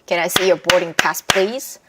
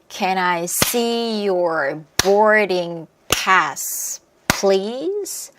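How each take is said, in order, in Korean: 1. 빠르게 말하고, 단어들이 이어져 있어요. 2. 천천히 말하고, 단어들이 이어져 있어요. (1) "조금 더 빠르게" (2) "천천히 다시 한번 연결해서 해볼게요"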